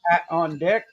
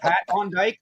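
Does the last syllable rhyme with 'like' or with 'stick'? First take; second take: stick; like. First: The last syllable has a short 'i' vowel. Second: The last syllable has a long 'eye' vowel. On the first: "you pronounce it on Dick. That's how it's pronounced"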